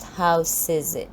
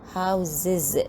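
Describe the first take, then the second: First: The consonant before the ending is an s sound. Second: The consonant before the ending is a z sound. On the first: The speaker calls it wrong. "not houses" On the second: The speaker calls it right. "after adding the S plural, we pronounce the word as houses"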